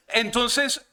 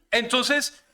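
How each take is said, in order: Both takes have the same delivery.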